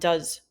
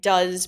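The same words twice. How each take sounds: First: The word is reduced with a weak vowel. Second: The word is said fully with a clear vowel.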